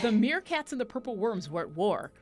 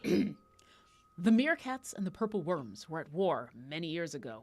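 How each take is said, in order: First: It is read in a casual, plain voice. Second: It is read in a serious, solemn voice.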